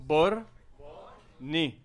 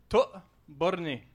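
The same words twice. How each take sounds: First: "To-bor-né" split into three slow syllables. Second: "To-borné" said very slowly, two parts; sounding out words. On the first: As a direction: spell out "To-bor-né" one syllable at a time. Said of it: "syllabe à, par syllabe". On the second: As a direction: stretch out "To-borné" for the crowd. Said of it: "une étape à la fois". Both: Shown as a demonstration.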